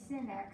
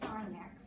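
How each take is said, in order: First: The first word rhymes with 'pin'. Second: The first word rhymes with 'line'. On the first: The speaker calls it wrong. "we don't say sin x" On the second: The speaker calls it right. "we say sine x"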